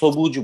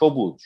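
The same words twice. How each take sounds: First: The word begins with a plain s sound. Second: The word begins with an sh sound. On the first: The speaker calls it wrong. "এখানে কিন্তু আমরা সবুজ বলছি না" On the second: The speaker calls it right. "উচ্চারণ করছি সবুজ"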